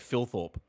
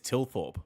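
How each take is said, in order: First: The name begins with an F sound. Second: The name begins without an F sound. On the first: The speaker calls it wrong. "they pronounce it like there's an F at the start of his name. They go Philthorpe" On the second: The speaker calls it right. "He says Tilthorpe"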